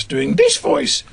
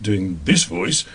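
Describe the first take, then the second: First: Higher, drawn-out character voice; second character voice. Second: First character voice. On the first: Radio actor demonstrating the next pass, high character voice. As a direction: switch up into a contrasting, slower sketch voice. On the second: Radio actor demonstrating one pass per character, first low voice. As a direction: lower sketch-character voice. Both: Shown as a demonstration.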